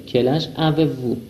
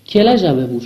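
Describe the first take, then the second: First: Quel âge avez-vous said slowly, each word apart; slow it right down for learners; slow, spelled-out repeat. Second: Said in the usual way. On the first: Shown as a demonstration. Teacher slowly repeats the question for students.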